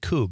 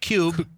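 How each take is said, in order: First: The vowel is a plain "oo" sound. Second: The vowel has a "y" glide, "yoo". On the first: The speaker calls it right. "Coob, not Cube" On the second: The speaker calls it wrong. "not Cube"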